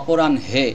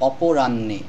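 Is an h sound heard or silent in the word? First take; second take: heard; silent. First: The h sound is heard before the n. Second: The h is silent and the n is doubled. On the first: The speaker calls it wrong. "এরকম কিন্তু হ উচ্চারণ করা যাবে না" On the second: The speaker calls it right. "দুইটি ন উচ্চারণ করলে শব্দটির উচ্চারণটি সঠিক হবে"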